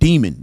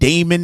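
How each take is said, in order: First: The first syllable sounds like 'dee'. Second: The first syllable sounds like 'day'. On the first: The speaker calls it right. "it's called Demon. It's always been that" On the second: The speaker calls it wrong. "if they want to call it Damon now"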